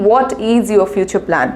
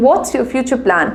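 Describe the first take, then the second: First: "What is" said as two separate, clear words; full form. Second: Slow, clear "What's" run together as one word; contracted form. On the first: Teacher contrasting the full form, slow and clear. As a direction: spell out "What is" without contracting. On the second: Teacher modelling the contraction, slow and clear. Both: Shown as a demonstration. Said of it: "Instead of saying".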